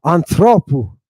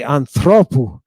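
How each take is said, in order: First: Anthropou stressed on the last syllable; accent shift. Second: Anthropou with the stress moved onto the final syllable; accent shift. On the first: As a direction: repeat anthropou with the end stressed. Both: Shown as a demonstration. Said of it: "our accent changes position".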